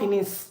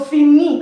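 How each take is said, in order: First: The final S is sounded. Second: The final S is silent. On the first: The speaker calls it wrong. "It's not finis. No" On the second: The speaker calls it right. "and it's not pronounced"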